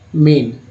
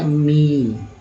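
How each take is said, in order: First: The vowel is a short 'e' sound. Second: The vowel is a long 'ee' sound. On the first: The speaker calls it right. "हम लोग बोल रहे हैं ए मेन" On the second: The speaker calls it wrong. "इसका उच्चारण हम लोग को तो मीन बोलना चाहिए था"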